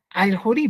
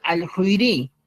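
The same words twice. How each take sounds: First: Alhurí with no extra i and stress on the final rí, rising; correct form. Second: Alhuiri said with a full extra i before ri, falling; wrong form. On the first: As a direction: say alhurí as the right form, the last syllable rising. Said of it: "sino vamos a poner". (forma correcta: alhurí, acento en rí) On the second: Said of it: "no vamos a poner". (forma incorrecta: alhuiri, con i antes de ri) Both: Shown as a demonstration.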